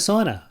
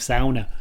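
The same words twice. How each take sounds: First: The word is said with the usual English sounds. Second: The word is said with Finnish-style sounds. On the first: This is the speaker's own everyday way. The speaker calls it wrong. "you mean a sauna?" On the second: This is how someone from Finland says it. The speaker calls it right. "if you're from Finland, that's how you'd say it"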